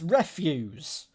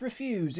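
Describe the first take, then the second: First: The stress is on the first syllable. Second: The stress is on the second syllable. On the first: Waste or rubbish. The speaker calls it right. "it's refuse. Uh, so it is waste" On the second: To decline to do something. The speaker calls it wrong. "it's not refuse"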